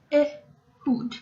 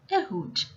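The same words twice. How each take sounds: First: Ehud slowly split, E, then hud; syllable-by-syllable pronunciation. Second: Said in the usual way. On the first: Shown as a demonstration. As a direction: sound out Ehud in two separate syllables. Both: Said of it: "pronounce it at least two times".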